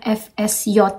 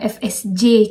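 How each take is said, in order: First: The final letter is pronounced 'yot'. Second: The final letter is pronounced 'je'. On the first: This is the German way of reading it. The speaker calls it right. "kita nyebutnya F S Y" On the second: This is not the German way of reading it. The speaker calls it wrong. "bukan F S J kalau di bahasa Jerman"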